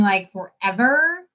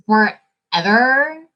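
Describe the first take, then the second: First: Said in the usual way. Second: Forever stretched slow with a rising end; slow emphatic forever; drawn-out forever. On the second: Real, not acted. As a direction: drag out forever like it's been ages. Repeated for emphasis.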